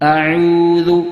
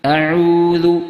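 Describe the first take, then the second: No difference in how they are said.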